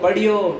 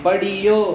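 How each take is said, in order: First: The middle consonants are joined in one cluster. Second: An extra vowel splits the middle consonants apart. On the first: The speaker calls it right. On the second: The speaker calls it wrong.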